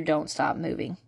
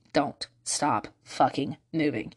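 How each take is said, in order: First: Said in the usual way. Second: Slow "Don't stop fucking moving", each word separate; low, deliberate "Don't stop fucking moving", word by word; emphatic repeat. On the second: Real, not acted.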